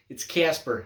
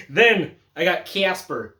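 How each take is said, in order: First: Said in the usual way. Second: Slow, drawn-out Midwestern take on Casper; slow, flat-vowel Midwestern delivery of "Casper"; Midwestern accent. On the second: Acted. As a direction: lean into a Midwestern accent, slowly. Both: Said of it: "like a Midwestern motherfucker".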